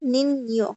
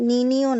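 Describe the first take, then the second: First: The middle consonant is a joined 'ny'. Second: The middle consonant is a plain 'n'. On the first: The speaker calls it right. "একসাথে উচ্চারণ করতে হবে" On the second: The speaker calls it wrong. "নিনিয় বললে হবে না"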